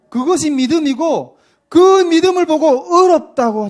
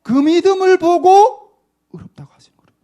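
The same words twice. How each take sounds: First: Loud, high emphatic preaching; raised preacher's call. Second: Intense stage whisper; breathy preacher's whisper; 1 whispered emphasis. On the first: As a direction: drive the point home with force. Preacher builds to emphatic point. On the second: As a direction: whisper it like a secret truth. Preacher repeats point as whisper. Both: Real, not acted.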